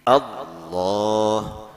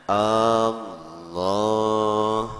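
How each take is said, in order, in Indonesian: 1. Vokal pertama pendek, tidak dipanjangkan. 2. Vokal pertama dipanjangkan, panjang. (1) "Jadi Allah" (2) "jangan Allah"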